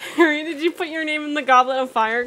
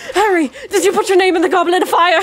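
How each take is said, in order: First: It is asked in a calm voice. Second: It is asked in an agitated voice.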